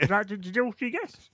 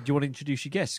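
First: It is said in a put-on, imitated voice. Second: It is said in a natural, normal speaking voice. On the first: "If I had to impersonate myself, it sounds like that" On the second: "I can't say"

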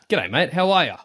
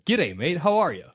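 First: It is said in an attempted Australian accent. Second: It is said in an attempted American accent. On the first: "What's the Australian voice I should be doing then" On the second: "Do an American accent"

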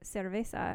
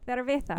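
First: It is said with a Latin American accent. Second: It is said with a Spain accent.

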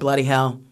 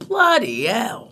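First: It is said in a plain accent. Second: It is said in a Cockney accent.

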